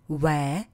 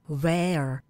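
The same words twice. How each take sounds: First: It is said with a British accent. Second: It is said with an American accent.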